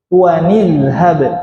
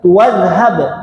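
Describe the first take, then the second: First: The words join with an added ni sound. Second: The words join with no n sound between. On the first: The speaker calls it right. "Harusnya tua ni, ada ni, ada nun kasrah" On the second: The speaker calls it wrong. "jangan dibaca tuwadhab, enggak, keliru"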